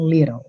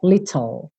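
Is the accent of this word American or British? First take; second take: American; British. First: The t sounds like a quick flapped d. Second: The t sounds are crisp and clearly released. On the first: "a gente tem esses dois T's soando como rararã" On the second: "Se você tivesse uma referência britânica, seria little"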